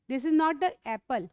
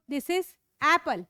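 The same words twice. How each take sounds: First: "apple" said as "epple" with an e sound; wrong vowel in apple. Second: "apple" said slowly with a clear short æ. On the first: Teacher showing the wrong "apple", slow. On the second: Teacher modelling the right "apple", slow and clear. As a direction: stretch "apple", open æ at the start. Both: Shown as a demonstration.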